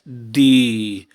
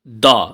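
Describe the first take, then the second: First: The vowel is long, like 'thee'. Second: The vowel is short, like 'thuh'. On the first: It comes before a vowel sound. "We pronounce it as a long sound" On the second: It comes before a consonant sound. "Normally we pronounce the with a short sound"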